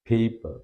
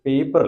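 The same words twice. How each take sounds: First: The first p has a puff of air. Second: The first p has no puff of air. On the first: The speaker calls it right. "ഒരു എസ്പിറേറ്റഡ് സൗണ്ടാണ് ഇത് വാക്കിൽ വരുമ്പോൾ" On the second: The speaker calls it wrong. "പേപ്പർ അല്ല"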